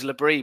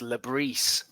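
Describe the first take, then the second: First: The name ends on a vowel sound. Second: The name ends with an s sound. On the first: The speaker calls it wrong. "So I thought it was Labrie" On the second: The speaker calls it right. "but apparently it's Labrise"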